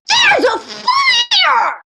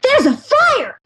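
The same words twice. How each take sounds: First: It is said with big, heightened energy. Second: It is said with small, low energy. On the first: The speaker pictures a huge three-story fire. The speaker calls it right. "You go" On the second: The speaker pictures a small three-foot fire. The speaker calls it wrong. "So you don't just go"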